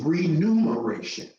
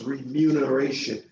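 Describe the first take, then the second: First: The second syllable is said as 'nu'. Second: The second syllable is said as 'mu'. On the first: The speaker calls it wrong. "misstated, misquoted as remuneration because you see numer" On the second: The speaker calls it right. "how do you properly pronounce that word? It's remuneration"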